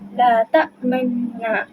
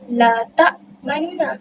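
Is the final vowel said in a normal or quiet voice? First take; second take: quiet; normal. First: The final vowel is said in a quiet, low voice. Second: The final vowel is said in a normal full voice. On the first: "dibaca secara perlahan" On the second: "pada asalnya"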